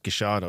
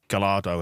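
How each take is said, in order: First: The double L is sounded as 'sh'. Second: The double L is sounded as an English 'l'. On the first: "that regional dialect is sh" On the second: "as you would say it, in an anglicised version"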